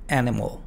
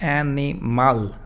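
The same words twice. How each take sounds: First: The last syllable has a reduced schwa. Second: The last syllable has a full vowel. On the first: The speaker calls it right. "sino mo" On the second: The speaker calls it wrong. "no es animal"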